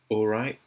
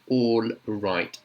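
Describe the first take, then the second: First: The final T is a glottal stop. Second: The final T is fully pronounced.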